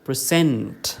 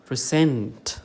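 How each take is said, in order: The two takes are said the same way.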